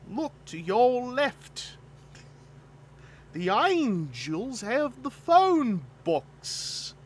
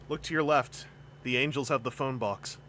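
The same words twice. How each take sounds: First: It is spoken in an exaggerated Cockney accent. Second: It is spoken in the speaker's ordinary accent.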